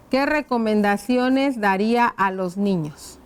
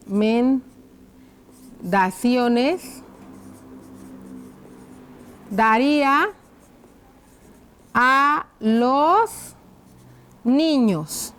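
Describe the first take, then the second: First: Said in the usual way. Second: Very drawn-out, broken into pieces; slow dictation. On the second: Shown as a demonstration. Teacher writing the closing question for children, slow dictation. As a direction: say each piece slowly as your hand writes it.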